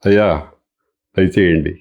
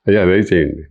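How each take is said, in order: First: It is said in a warm, inviting tone. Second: It is said in a curt, dismissive tone. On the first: The guest is welcome to come in. "భోజనానికి రండి అని అంటాం" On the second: The person is being told to go away. "ఒక రకమైనటువంటి ఇంటోనేషన్తో అంటే పో పో అనే అర్థం వస్తుంది"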